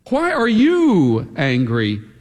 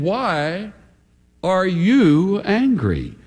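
First: The stress is on the word you. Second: The stress is on the word angry.

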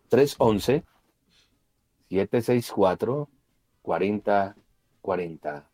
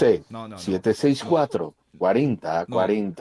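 First: The number is said slowly. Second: The number is said quickly.

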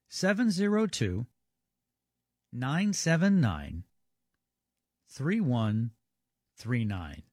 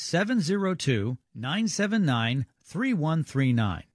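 First: The number is said more slowly. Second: The number is said at normal speed.

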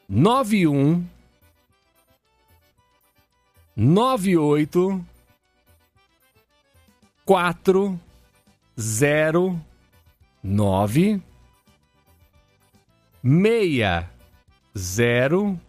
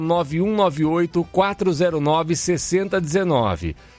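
First: The number is read very slowly. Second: The number is read at normal speed.

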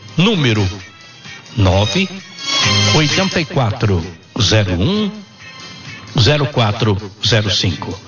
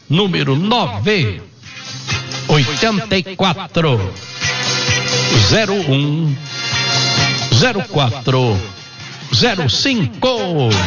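First: The number is said at a normal pace. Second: The number is said slowly.

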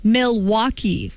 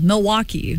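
First: The L is clearly pronounced, like an outsider. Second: The L is dropped, like a local.

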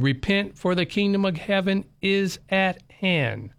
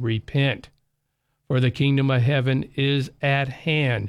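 First: It is read at a faster pace. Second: It is read at a slower pace.

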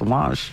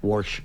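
First: It is said New England-style without an R. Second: It is said Ohio-style with an R sound.

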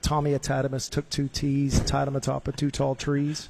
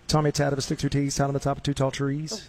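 First: It is said at a slower pace. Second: It is said at a fast pace.

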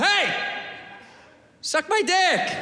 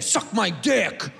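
First: It is said in a nice, friendly tone. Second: It is said in a hostile, negative tone.

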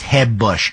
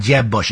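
First: Jeb starts with a Spanish-style H sound. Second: Jeb starts with an English J sound.

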